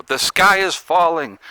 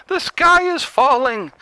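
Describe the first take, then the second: First: Slow mock-alarmed cry; mock Chicken Little. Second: Much higher, slow alarmed wail; Chicken Little panic. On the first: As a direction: play the panicked Chicken Little, slowly. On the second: Pretend. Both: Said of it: "Let's be Chicken Little".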